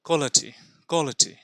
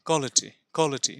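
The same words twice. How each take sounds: Both takes have the same delivery.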